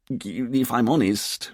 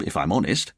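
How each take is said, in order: First: Slow, faltering, giving up; quiet despair. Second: Casual, lightly tossed-off tag; keeping things light. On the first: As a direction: trail into helpless embarrassment. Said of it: "Richard said in quiet despair". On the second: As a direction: add it as an offhand quip. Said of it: "by way of keeping things light". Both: Acted.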